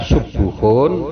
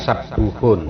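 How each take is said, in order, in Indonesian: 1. Vokal pertama adalah bunyi 'u'. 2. Vokal pertama adalah bunyi 'a'. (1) "boleh dibaca subuhun" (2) "boleh dibaca sabuhun"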